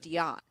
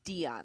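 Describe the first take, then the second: First: The stress is on the second syllable. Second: The stress is on the first syllable. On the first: The speaker calls it right. "there should be an accent on the end of it" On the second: The speaker calls it wrong. "and not Dion, like Dion Sanders"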